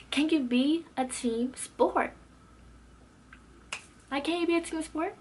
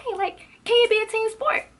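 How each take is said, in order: First: Annoyed challenge. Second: Loud, very high-pitched exasperated question; exasperated outburst. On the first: Student challenges classmate for cutting others off, annoyed. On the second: Student calls out the teacher's pet, loudly exasperated. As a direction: burst out high and loud in disbelief. Re-enacting her outburst to classmate. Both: Retold or imitated.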